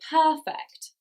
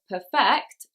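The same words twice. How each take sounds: First: The stress is on the first syllable. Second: The stress is on the second syllable. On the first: The speaker calls it right. "we say funny, perfect. The stress is on the first syllable" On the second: The speaker calls it wrong. "We don't say perfect"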